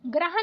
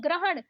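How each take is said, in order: First: ग्रहण ending in plain न; wrong dental N. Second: ग्रहण ending in curled-tongue ण; correct retroflex ण. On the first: Teacher showing learners the mistake, dental-N ग्रहण. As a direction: say ग्रहण as ग्रहन. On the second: Teacher correcting learners, retroflex ग्रहण. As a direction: curl back for ण in ग्रहण. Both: Shown as a demonstration. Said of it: "नहीं".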